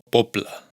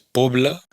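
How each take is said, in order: First: The consonant before the L is doubled, sounding voiceless. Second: The consonant before the L is single and voiced. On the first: The speaker calls it right. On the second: The speaker calls it wrong. "No es"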